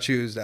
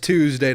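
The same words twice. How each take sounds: First: It is said in a British accent, like 'Chewsday'. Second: It is said in a plain American accent. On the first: "If someone has an accent" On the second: "it's it's Tuesday"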